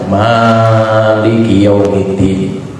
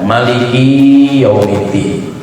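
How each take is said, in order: First: The first syllable of Maliki is lengthened. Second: The third syllable of Maliki is lengthened. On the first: "Bisa dibaca mimnya panjang" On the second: "kafnya dipanjangkan"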